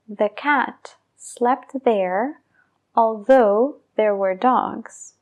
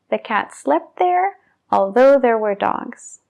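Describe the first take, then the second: First: The sentence is said at a slow pace. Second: The sentence is said at a fast pace.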